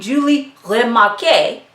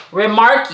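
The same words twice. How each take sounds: First: French accent. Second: Said in the usual way. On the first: Shown as a demonstration. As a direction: try Remarque with a light French accent. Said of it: "the French accent". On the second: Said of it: "I'm sorry, the French accent".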